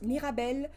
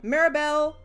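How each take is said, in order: First: The name is said in a French accent. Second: The name is said in a plain English accent.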